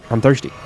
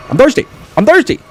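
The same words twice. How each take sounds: First: Said in the usual way. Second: High loud cry of I'm thirsty; desperate shouted complaint; yelled whine. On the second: Real, not acted. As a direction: wail it much higher and louder. Needs healing drink.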